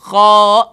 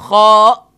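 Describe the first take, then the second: No difference in how they are said.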